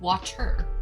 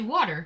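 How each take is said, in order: First: The middle t is said as a crisp t. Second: The middle t sounds like a soft d. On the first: The speaker calls it right. "it really should be water" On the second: The speaker calls it wrong. "I say water"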